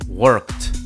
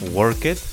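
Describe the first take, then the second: First: The ending is a plain T sound. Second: The ending is an extra syllable. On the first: The speaker calls it right. "the sound is like a T" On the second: The speaker calls it wrong. "It is not work it"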